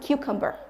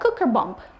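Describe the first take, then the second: First: The word is said as plain 'cucumber'. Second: The word sounds like 'cooker bomb'. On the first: The speaker calls it right. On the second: The speaker calls it wrong.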